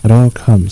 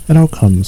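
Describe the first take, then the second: First: "It all comes" in a firm, reproving tone; a hint of a scolding rabbit, "It all comes"; mildly stern. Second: A touch of bear grumpiness on "It all comes"; mildly cross and put out, "It all comes". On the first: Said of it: "said Rabbit sternly". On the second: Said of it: "said Pooh crossly". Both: A narrator's reading.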